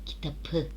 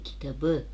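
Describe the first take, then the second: First: The middle consonant is a hard p sound. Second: The middle consonant is a soft b sound. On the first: The speaker calls it wrong. "kitapı söyleyebiliyor muyuz? Hayır, dilimiz zorlanıyor" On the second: The speaker calls it right. "yumuşama yaptı"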